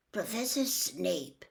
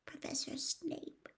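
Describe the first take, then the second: First: Professor Snape repeated slowly and a little softer, musing; thoughtful. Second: Professor Snape breathed out slowly, voiceless and much softer; a frightened boy's whispered confession; barely a whisper. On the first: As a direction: weigh the name slowly, thinking it over. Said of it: "looked thoughtful". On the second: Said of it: "in barely more than a whisper". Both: Acted.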